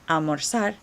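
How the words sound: The z is said like a soft s. "a Mexican accent or a Latin American accent ... as a soft S"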